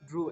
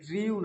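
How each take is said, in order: First: The vowel is a plain 'oo' sound. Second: The vowel has an 'ee' glide before 'oo'. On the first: The speaker calls it right. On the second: The speaker calls it wrong.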